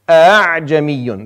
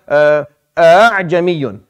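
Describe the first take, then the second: First: The second glottal stop is softened and glided over. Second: Both glottal stops at the start are fully pronounced. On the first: "you just kind of roll over the second one" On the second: "So it's a-a-jamiyun in origin"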